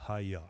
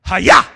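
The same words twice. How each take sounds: First: "Hayah" said soft and low, falling away; wrong limp version. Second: "Hayah" shouted loud, rising at the end; shouted Hebrew word. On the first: Preacher mocking a weak way to say "Hayah". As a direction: mumble "Hayah" meekly, the wrong way. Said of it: "No, no, that's wrong". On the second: Preacher showing the congregation how to say "Hayah". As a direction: bark out "Hayah" with full force. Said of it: "you gotta say it like that". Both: Shown as a demonstration.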